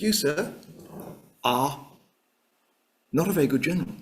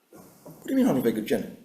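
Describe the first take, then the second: First: Halting, with weighty pauses; pointed accusation. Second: Rapid, rushed comeback; affronted retort. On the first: Clark confronting his superior Alexander in his office, pointed and halting. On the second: Alexander answering the insult from Clark, affronted and rapid. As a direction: fire the question straight back, very fast. General acted answering the accusation. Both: Acted.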